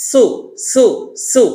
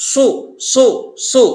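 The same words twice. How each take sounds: First: "সু" with light sharp s; thin hissed "সু"; Seen's SU. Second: "সু" thick, lips rounded; heavy Saad SU. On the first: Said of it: "আর সিনে বলেছিলেন". (সিনের হালকা "সু") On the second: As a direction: fatten each "সু" with a dark s. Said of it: "সদে বলছেন মোটা করে". (মোটা করে "সু") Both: Shown as a demonstration.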